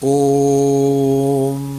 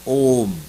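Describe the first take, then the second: First: The vowel is held very long, ending in a hum. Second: The vowel is held for a long time. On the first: "लेकिन एक प्लुत होता है" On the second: "एक दीर्घ होता है"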